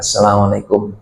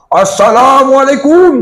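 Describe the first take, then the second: First: The greeting is said quietly and softly. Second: The greeting is said loudly and prominently. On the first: The greeting avoids disturbing the ongoing talk. The speaker calls it right. "dia cukup pelan aja" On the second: The greeting interrupts the ongoing talk. The speaker calls it wrong. "terganggu yang ceramah itu pula kan?"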